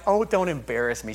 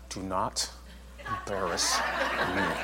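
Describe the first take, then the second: First: It is said lightly and casually. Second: It is said sternly and slowly.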